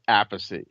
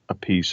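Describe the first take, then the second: First: The name ends with a 'chee' sound. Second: The name ends with a 'peace' sound. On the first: This is the family's original pronunciation. The speaker calls it right. "my father said [name]" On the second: This pronunciation was picked up later from someone else. The speaker calls it wrong. "[name] pronounced it Apiece"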